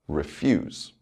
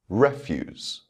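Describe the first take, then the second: First: The stress is on the second syllable. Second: The stress is on the first syllable. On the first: It is used as a verb. "with the verb, the stress will fall on the second syllable" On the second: It is used as a noun. "the noun will have its word stress on the first syllable"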